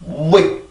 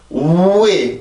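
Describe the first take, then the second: First: The glide is quick and very short. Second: The glide is slow and drawn out. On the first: The speaker calls it right. "왜 이렇게요" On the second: The speaker calls it wrong. "왜 이렇게 가는 게 아니에요"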